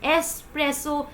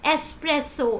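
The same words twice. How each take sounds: Both takes have the same delivery.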